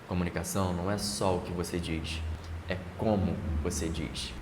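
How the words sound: The sentence has a marked pause inside it.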